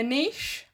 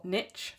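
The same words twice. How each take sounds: First: "niche" said as "neesh", long ee; "niche" with a long ee vowel; British pronunciation. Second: "niche" said as "nitch", short i; "niche" with a short i and a tch ending; American pronunciation. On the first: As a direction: say "niche" the English way, rhyming with leash. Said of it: "I'm English". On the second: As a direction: say "niche" the American way, rhyming with pitch. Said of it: "sorry, Americans". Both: Shown as a demonstration.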